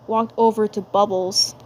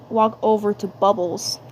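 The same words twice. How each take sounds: The two takes are said the same way.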